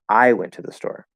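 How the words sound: The word I is stressed. It was me, not someone else, who went. "if you make I the focus word"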